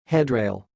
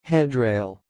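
First: It is said at normal speed. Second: It is said slowly.

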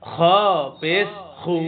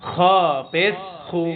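The two takes are said the same way.

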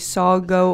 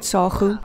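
First: The middle consonant is a hard g. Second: The middle consonant is a throaty kh. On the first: "In English, you might say sago" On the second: "We pronounce the G as a kh"

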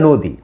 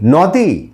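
First: The first vowel is an 'o' sound. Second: The first vowel is an open 'a' sound. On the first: The speaker calls it right. "এটা নদী" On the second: The speaker calls it wrong. "কি নদী, না"

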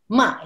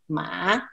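First: The syllable is said with Mandarin tone four. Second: The syllable is said with Mandarin tone three.

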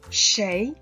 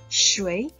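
First: The word is said in its colloquial pronunciation. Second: The word is said in its formal pronunciation. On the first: It suits everyday conversation. "the pronunciation 谁 is more commonly used in everyday life" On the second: It suits serious or solemn occasions. "The pronunciation 谁 is usually used.For more serious or solemn occasions"

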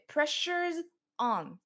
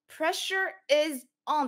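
First: The word 'is' is squeezed onto the preceding word. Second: The word 'is' is pronounced as a separate word.

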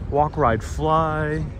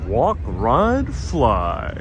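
First: It is said in the speaker's own ordinary voice. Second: It is said imitating another person's way of speaking. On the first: The speaker calls it wrong. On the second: The speaker calls it right.

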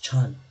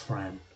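First: The name begins with a 'ch' sound. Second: The name begins with a 'tr' sound. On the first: This is how the name is really said. The speaker calls it right. "that's how my name is actually pronounced" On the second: This is how others usually say the name. The speaker calls it wrong. "Everyone calls me Ann Tran. It's not Ann Tran"

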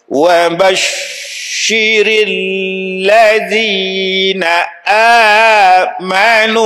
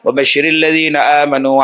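First: It is recited at a very slow pace. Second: It is recited at a fast pace. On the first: This is the pace for beginners learning to recite. "Bacaan paling slow untuk orang yang baru belajar" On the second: This is the pace for revising a memorised text. "Laju tapi tajwid jaga. Laju bacaan"

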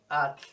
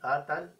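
First: The t and l are joined, no vowel between. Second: An a vowel separates the t and l. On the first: The speaker calls it right. "es at, punto" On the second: The speaker calls it wrong. "ni atal"

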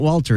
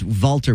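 First: The name begins with a W sound. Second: The name begins with a V sound. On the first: The speaker calls it wrong. "It's not Walter" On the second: The speaker calls it right. "It's Walter with a V"

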